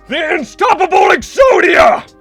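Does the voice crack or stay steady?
cracks. The impression voice cracks and strains.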